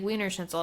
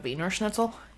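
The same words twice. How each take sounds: First: It is said with an American English pronunciation. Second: It is said with a German-like pronunciation. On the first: The speaker calls it wrong. "Because we say it wrong" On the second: The speaker calls it right. "I believe it's probably closer to"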